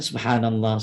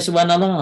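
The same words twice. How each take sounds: First: It is said slowly and with deep feeling. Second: It is said fast and hurried, without feeling.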